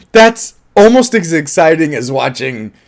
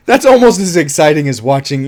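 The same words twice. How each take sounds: First: Said in the usual way. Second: Almost leaned on, with a laugh; stress on almost. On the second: Shown as a demonstration. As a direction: lean on the word almost. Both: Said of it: "I stress almost".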